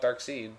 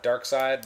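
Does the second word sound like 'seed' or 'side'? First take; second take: seed; side. First: The second word rhymes with 'reed'. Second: The second word rhymes with 'ride'. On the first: "But some people call it Dark Seed" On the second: "Dark Side, that's what I would have thought"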